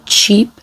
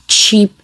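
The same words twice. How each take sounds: The two takes are said the same way.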